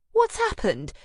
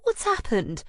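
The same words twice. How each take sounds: First: High, loud startled exclamation; exclaiming. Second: High worried question; a concerned friend asking; alarmed friend. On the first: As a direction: gasp it out in alarm. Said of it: "she exclaims". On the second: Anna finding her friend sobbing. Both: Acted.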